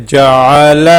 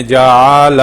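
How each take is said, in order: First: جعل with short, crisp vowels, not drawn out; correct short reading. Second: جعل with the vowels stretched long; wrong drawn-out reading. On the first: Teacher showing pupils the right way: جعل short and unstretched. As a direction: say جعل briskly, no stretching of the vowels. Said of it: "تو اس کو ایسے پڑھیں گے". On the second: Teacher showing pupils the wrong way: جعل with long, dragged vowels. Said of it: "لوگ پڑھ رہے ہوتے ہیں تو اس طریقے سے پڑھتے ہیں". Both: Shown as a demonstration.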